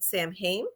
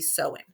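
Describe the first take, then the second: First: The word is pronounced letter by letter, as spelled. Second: The word is pronounced differently from its spelling. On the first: The speaker calls it wrong. "because that's how it's it looked to me" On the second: The speaker calls it right. "it's actually supposed to be"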